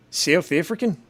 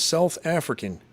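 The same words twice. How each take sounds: First: Badly faked South African accent, rising in question; shaky stab at a South African accent; South African accent attempt. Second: Said in the usual way. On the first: Shown as a demonstration. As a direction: try a South African accent that slips towards Australian. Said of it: "it just sounds more Australian". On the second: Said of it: "I'm not really good with accents".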